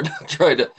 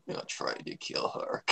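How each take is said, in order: First: Said in the usual way. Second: Low, slow smug whisper. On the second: Shown as a demonstration. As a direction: breathe it out smugly and slowly. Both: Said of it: "I'm trying to just be smug here".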